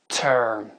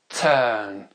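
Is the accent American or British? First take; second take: American; British. First: It is said in an American accent. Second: It is said in a British accent. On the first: "l'accent américain après" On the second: "l'accent britannique d'abord"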